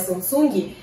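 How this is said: It is pronounced the Brazilian Portuguese way. "como a gente fala aqui"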